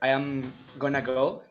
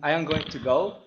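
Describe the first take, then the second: First: Going to is reduced, but I am stays full. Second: Every word is said in full, unreduced. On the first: "you don't say" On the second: "you don't say"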